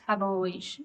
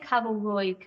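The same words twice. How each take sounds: First: The name is said in a Valencian way. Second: The name is said in a Castilian Spanish way. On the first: The speaker calls it right. "it's actually pronounced Cabo Roig" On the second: The speaker calls it wrong. "I always say Cabo Roig"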